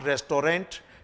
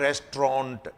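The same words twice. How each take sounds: First: Every syllable is pronounced fully. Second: The middle syllables are reduced and shortened. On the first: The speaker calls it wrong. "So it's not restaurant" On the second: The speaker calls it right. "it's restaurant"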